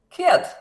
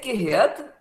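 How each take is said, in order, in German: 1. Die Silbe ge- wird zu einem kurzen g-Laut gekürzt. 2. Die Silbe ge- wird voll ausgesprochen.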